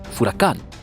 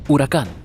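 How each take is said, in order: First: The word begins with an f sound. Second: The word begins directly with a vowel. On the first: "furacán con F" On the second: "con una H silenciosa"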